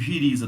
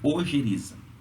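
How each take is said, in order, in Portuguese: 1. A palavra começa diretamente com o som de 'zh'. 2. A palavra começa com o som da vogal 'o'. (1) "As pessoas é, chamam de giriza" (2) "Não. É ojeriza"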